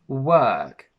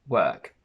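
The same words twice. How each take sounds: First: The vowel has extra, strong pressure. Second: The vowel has very light pressure. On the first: "they put a little bit of extra pressure on it" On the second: "the option with the least amount of pressure"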